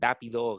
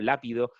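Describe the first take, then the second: First: The word begins with a d sound. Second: The word begins with an l sound. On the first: "te dicen dápido"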